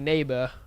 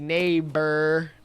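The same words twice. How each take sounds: First: A British accent with the final R dropped. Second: An American accent with the final R pronounced. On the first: "they don't say their R's as enunciated as we do. Like they say neighbor" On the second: "whereas we say neighbor"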